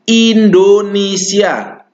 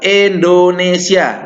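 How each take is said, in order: First: The first vowel is a clear i sound. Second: The first vowel is an e sound. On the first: The speaker calls it right. "Namanya Indonesia ya pakai i, ya, i-nya jelas" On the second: The speaker calls it wrong. "bukan e yang dibaca"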